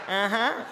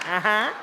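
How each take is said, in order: The two takes are said the same way.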